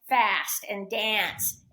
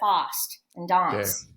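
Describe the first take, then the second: First: It is said in an American accent. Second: It is said in a non-American accent.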